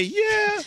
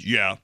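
First: "Yeah." jumped way up high, thin and bright; high squeaky yeah. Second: A low, sunk "Yeah." with a falling finish; imitating a low yeah. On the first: Shown as a demonstration. Host shows the higher "Yeah." he didn't say, squeaked high. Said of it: "you didn't say". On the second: Host mimics cohost's low "Yeah." in a lower voice. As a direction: copy his deep, flat "Yeah." back at him. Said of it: "when you just said".

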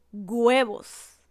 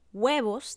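First: Huevos said gwebos, hard g added. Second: Huevos as webos; correct huevos. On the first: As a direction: push a g into huevos. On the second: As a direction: huevos con w suave. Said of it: "en vez de decir". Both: Shown as a demonstration.

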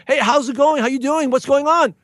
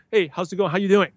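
First: Higher, eager run of hellos; long lost friend greeting. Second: Easygoing, understated hello; casual, informal greeting. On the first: To a friend unseen since high school, delighted and eager. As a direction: greet an old pal after years apart. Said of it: "what I say, the long lost friend". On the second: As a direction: toss off a relaxed hello. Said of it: "very, very casual, informal to make you feel good". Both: Shown as a demonstration.

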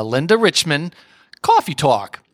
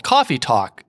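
First: Lightly put-on New York accent; Linda Richman. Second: Said in the usual way. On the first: TV host names her show, in a mock New York accent. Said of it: "very thick, uh, New York accent". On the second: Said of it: "New York accent".

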